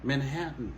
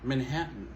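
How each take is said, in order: Both takes have the same delivery.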